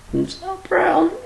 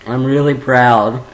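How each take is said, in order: First: Tiny, very high, slow voice; gushing squeal. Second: Said in the usual way. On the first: Pretend. Vlogger gushing to viewers with pride, high drawn-out squeal. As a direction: squeak it out, overcome with mock pride.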